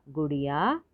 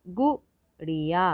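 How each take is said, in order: First: Said in the usual way. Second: गुड़िया split as short गु, ड़ि, या; syllable by syllable. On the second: Shown as a demonstration. Teacher sounding out गुड़िया for learners, syllable by syllable. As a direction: separate beats in गुड़िया. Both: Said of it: "तो शब्द पढ़ते हैं".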